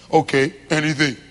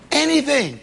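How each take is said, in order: First: Much lower, blunt literal reply; deadpan husband. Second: A higher, louder plea, falling at the end; pleading wife. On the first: Husband answering his wife, a low deadpan dodge. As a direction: dodge her with a shrug in the voice. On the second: Wife begging her husband to talk, a pleading plea. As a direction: beg him for any word at all. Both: Acted.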